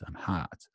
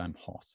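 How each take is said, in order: First: An open, long American 'ah' vowel in hot. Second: A short, relaxed, flat British vowel in hot. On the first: "the U S pronunciation is much more like an ah" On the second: "In British English"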